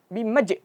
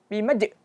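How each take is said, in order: Both takes have the same delivery.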